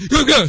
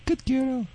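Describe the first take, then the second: First: Put-on Good girl loud and high, blurted out; the wrong way, a sudden loud praise that startles; loud high praise that startles the dog; startling praise. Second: Put-on Good girl high and soft, falling gently; soft high praise while she pees. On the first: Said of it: "So she'll startle her". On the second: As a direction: praise her quietly and higher so she's not startled. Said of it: "Don't, she say, "Good girl." So she'll startle her". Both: Shown as a demonstration.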